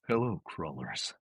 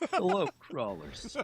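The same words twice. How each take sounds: First: It is said in Carl's usual voice. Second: It is said in Carl's book-one voice.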